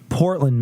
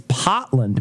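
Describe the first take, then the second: First: The R sound is clearly pronounced. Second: The R sound is dropped entirely. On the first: The speaker calls it wrong. "It's not Portland" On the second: The speaker calls it right. "It's Potland, Maine. ... they don't pronounce R's"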